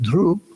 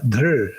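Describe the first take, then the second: First: The root ends in an oo-like vowel. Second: The root ends in a vowel-like r sound. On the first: This is the Maharashtrian and South Indian pronunciation. "Maharashtrians and some South Indians pronounce it dhru" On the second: This is the original pronunciation scholars reconstruct. "R as a vowel"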